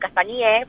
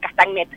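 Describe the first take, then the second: First: The word ends in a vowel, no final T. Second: The word ends with an audible T sound. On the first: The speaker calls it right. "no se pronuncia la ET" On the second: The speaker calls it wrong. "la mayoría se dice castañet"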